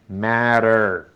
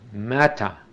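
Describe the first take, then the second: First: The middle consonant is a quick tapped r. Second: The middle consonant is a clear t sound. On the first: "los norteamericanos esa T... las pronuncian como era española" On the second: "en Inglaterra la pronuncian como tal"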